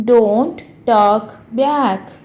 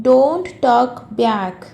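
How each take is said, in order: First: DON'T, TALK, BACK, each slow and separate; slow model repeat. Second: Said in the usual way. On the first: Shown as a demonstration. Teacher repeats a phrase for learners, slow word by word.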